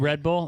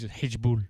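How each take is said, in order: First: The first word starts with an R sound. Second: The first word starts with an H sound.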